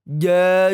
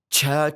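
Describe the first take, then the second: First: The j has no hiss at all. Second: The j sounds like a full ch. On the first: "Jadi tidak seperti ini" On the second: "Ini juga salah. Jauh lebih fatal ini"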